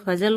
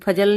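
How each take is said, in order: First: The consonants are fricatives, like f and z. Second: The consonants are plain, like ph and j. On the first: The speaker calls it right. "बिंदी लगा दे तो फजल हो जाएगा" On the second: The speaker calls it wrong. "जैसे फजल नहीं बोला जाता है"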